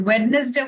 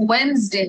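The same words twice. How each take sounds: First: "ওয়েডনেসডে" sounded out letter by letter as wed-nes-day; wrong spelling pronunciation. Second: "ওয়েডনেসডে" said as wens-day, the middle d silent; correct pronunciation. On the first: Teacher shows students the mistaken wed-nes-day reading. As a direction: read "ওয়েডনেসডে" the way it is spelt, every syllable. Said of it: "ওয়েডনেসডে হয় না". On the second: Teacher gives students the right wens-day pronunciation. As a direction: squeeze "ওয়েডনেসডে" into two beats, wens-day. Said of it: "ওয়েডনেসডে হয়". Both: Shown as a demonstration.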